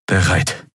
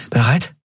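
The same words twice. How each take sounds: First: "Bereit" with no rise, as a statement; confirming answer. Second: "Bereit" higher, lifting at the end; questioning rise. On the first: Kai confirming before the door opens, "Bereit" as a settled answer. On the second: Endriel checking with Kai before the door, "Bereit" as a rising question. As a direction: ask "Bereit" with a clear rise. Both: A narrator's reading.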